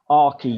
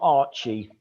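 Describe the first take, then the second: First: The middle consonant is a hard k sound. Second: The middle consonant is a ch sound. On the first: The speaker calls it right. "Silent H" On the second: The speaker calls it wrong. "not Archie"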